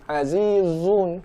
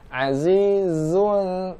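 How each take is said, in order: First: The z sound is thick and heavy. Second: The z sound is thin and light. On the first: The speaker calls it wrong. "Jangan azizun" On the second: The speaker calls it right. "tetap diucapkan di rahang tipis"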